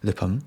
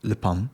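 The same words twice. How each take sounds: First: It is said with a Japanese pronunciation. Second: The same.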